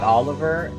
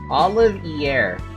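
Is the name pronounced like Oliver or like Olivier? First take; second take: Oliver; Olivier. First: The name sounds like the English name Oliver. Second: The name sounds like the French name Olivier. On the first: The speaker calls it wrong. "not Oliver" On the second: The speaker calls it right. "as in Olivier"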